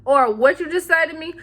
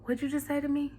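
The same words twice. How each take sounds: First: Higher, forceful challenge; acted feisty offense; mock confrontational. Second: Quiet, menacing challenge; mock confrontational. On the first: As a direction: snap it as if ready to argue. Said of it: "It just really depends". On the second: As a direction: ask it softly, as a warning. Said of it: "it's just like that times a thousand".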